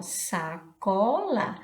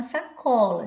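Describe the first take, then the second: First: Sacola slowly stretched into its syllables. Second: Said in the usual way. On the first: Shown as a demonstration. Teacher finding words inside a word, sacola slowly syllabified. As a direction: break up sacola slowly for learners. Breaks down word to find others.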